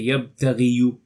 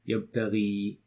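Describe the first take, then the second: First: The word ends with a 'yoo' syllable. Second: The word ends on a plain 'ee' sound. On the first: The speaker calls it wrong. "you don't say yabtaghiyu, no, don't say that" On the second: The speaker calls it right. "you leave it as is. Yabtaghi, silent"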